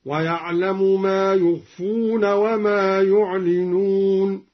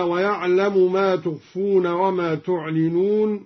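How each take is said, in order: First: "يخفون" and "يعلنون" starting with y, chanted; third-person ya. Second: Said in the usual way. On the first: Shown as a demonstration. Teacher demonstrating the ya reading, "يخفون" in slow chant. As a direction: recite slowly with yu in "يخفون" and "يعلنون". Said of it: "قرأ بياء الغيبة هكذا". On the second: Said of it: "قرأ بياء الغيبة".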